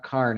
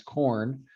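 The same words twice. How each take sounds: First: Karn with an open "ar" vowel; Karn, rhyming with barn; rural pronunciation. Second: Said in the usual way. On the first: Shown as a demonstration. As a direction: say Karn for corn, rural style. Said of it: "the rural separation". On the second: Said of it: "it's not Karn".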